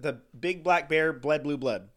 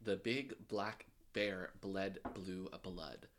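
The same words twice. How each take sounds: First: Rattled off quickly; fast tongue twister. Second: Careful, slow and quiet; slow tongue twister. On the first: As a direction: race through it fast. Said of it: "I did it way faster than you". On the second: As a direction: spell it out word by word, slowly. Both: Shown as a demonstration.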